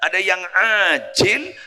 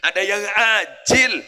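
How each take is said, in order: First: The word begins with a throaty 'ain' sound. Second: The word begins with a plain glottal stop. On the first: The reward comes right away. "Ada yang pakai ain" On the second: The reward comes later. "ada yang pakai hamzah"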